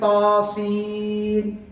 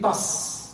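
First: It is two syllables naming each letter. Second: It is one short syllable of letter sounds. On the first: The names of the letters are said. The speaker calls it right. "But I'm saying taseen" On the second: The letters themselves are sounded. The speaker calls it wrong. "If I were to pronounce the letter"

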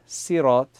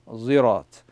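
First: It begins with a light, plain s sound. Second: It begins with a z sound. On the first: "so Sad and Seen" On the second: "and a Zirat"

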